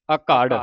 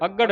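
First: ਅਘੜ with light a and long, weighted second syllable; louder ਅਘੜ, leaning on the second syllable; correct pronunciation. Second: Higher, quick ਅਘੜ with clipped second syllable; misreading demo. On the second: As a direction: rush ਅਘੜ, weight on the first syllable. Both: Shown as a demonstration. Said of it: "ਅਘੜ ਨਹੀਂ ਪੜ੍ਹਨਾ ਇਹਨੂੰ".

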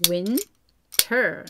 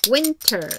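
First: "Winter" with WIN stressed and a falling tune. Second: "winter" with WIN hit higher and louder, falling after; loud stress on WIN. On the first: Teacher drilling the rhythm for kids, stressing WIN. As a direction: clap along on WIN. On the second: Teacher drilling the rhythm, hitting WIN high and loud. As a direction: really punch the WIN. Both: Shown as a demonstration. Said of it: "이렇게 강세에 맞춰서".

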